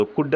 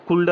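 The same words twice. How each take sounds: First: కుడ్ with no l sound; correct silent L. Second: కుల్డ్ with the l pronounced before d; wrongly sounded L. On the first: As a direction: say కుడ్ as "kud", straight to the d. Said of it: "అని పలకాలి". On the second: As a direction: voice the L in కుల్డ్, as "kuld". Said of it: "అని పలకకూడదు". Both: Shown as a demonstration.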